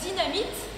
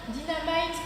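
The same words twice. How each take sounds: First: The word is pronounced the French way. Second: The word is pronounced the English way.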